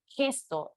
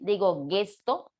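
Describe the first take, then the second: First: It begins with a throaty j sound. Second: It begins with a hard g sound. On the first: The speaker calls it right. "Ahí la G suena como J" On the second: The speaker calls it wrong. "¿Ustedes creen que ahí la G suena como G? Yo digo gente, digo gesto"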